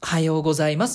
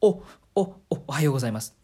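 First: There is a hesitation before the word starts. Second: The first sound is repeated several times.

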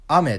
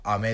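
First: The pitch is high on the first syllable. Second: The pitch is high on the second syllable. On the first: It means rain falling from the sky. "空から降る雨" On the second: It means a candy you suck on. "口で舐めるお菓子としての雨"

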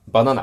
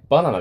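First: It has a western Japanese pitch pattern. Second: It has a standard Japanese pitch pattern.

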